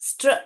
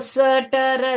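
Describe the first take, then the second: First: The consonants run together without vowels. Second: Vowels are inserted between the consonants. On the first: The speaker calls it right. "स्ट्र स्ट्र स्ट्र ऐसे पढ़ना है" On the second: The speaker calls it wrong. "सटर सटारा पढ़ोगे तो गलत आएगा"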